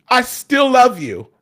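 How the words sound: It is said in a full, bold voice.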